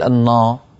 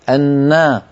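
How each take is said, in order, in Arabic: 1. صوت النون غليظ وثقيل. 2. صوت النون رقيق وخفيف. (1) "ولا تقول" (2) "رقق النون"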